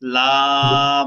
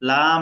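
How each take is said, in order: First: The word is drawn out and held long. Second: The word is said short and clipped. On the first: The speaker calls it right. "এভাবে ধরে রাখতে হবে" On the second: The speaker calls it wrong. "লাম মিম এভাবে বলতেছেন"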